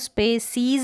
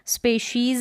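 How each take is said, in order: First: The middle consonant is an 's' sound. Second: The middle consonant is a 'sh' sound. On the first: The speaker calls it wrong. "इसको स्पेसीज ना पढ़ें" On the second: The speaker calls it right. "स्पेशीज़ है"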